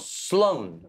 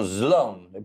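First: The name begins with a hissing s sound. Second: The name begins with a buzzing z sound. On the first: The speaker calls it right. "col serpente" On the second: The speaker calls it wrong. "dicono Sloan con la mosca"

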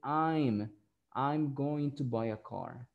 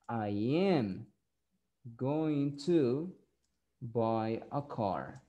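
First: 'I am' is shortened to one syllable, 'I'm'. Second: 'I am' is said as two full words.

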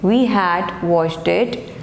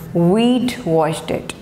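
First: The word 'had' is said in full. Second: 'Had' is reduced to a 'd' sound. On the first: "this is the pronunciation of contractions" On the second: "this is the pronunciation of contractions"

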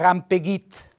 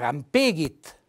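First: The stress is on the last syllable. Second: The stress is on the middle syllable. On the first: "Se lo mettessi sulla I diventerebbe, come fosse una parola tronca" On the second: "Se lo mettessi sulla E diventerebbe"

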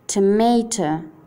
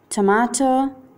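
First: It is said with an American English accent. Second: It is said with a British English accent. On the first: "inglese americano" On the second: "inglese britannico"

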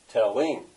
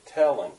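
First: The stress is on the second syllable. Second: The stress is on the first syllable. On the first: The speaker calls it wrong. "You don't stress that. You don't say telling" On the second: The speaker calls it right. "You say telling. So this is a feminine ending"

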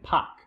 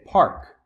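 First: The R after the vowel is dropped. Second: The R after the vowel is pronounced. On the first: "the Boston variation is to kind of ignore that R" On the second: "the standard pronunciation would be to say park"

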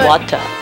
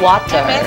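First: It has a British accent with no r sound. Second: It has an American accent with the r sounded. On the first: This is how the British say it. "我们就会说water，我们就没有那个R那个音" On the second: This is how Americans say it. "他们说water"

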